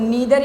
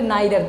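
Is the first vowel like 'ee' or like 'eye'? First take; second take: ee; eye. First: The first vowel sounds like 'ee'. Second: The first vowel sounds like 'eye'. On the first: "नीदर या नाइदर दोनों पढ़ सकते हो" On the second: "नीदर या नाइदर दोनों पढ़ सकते हो"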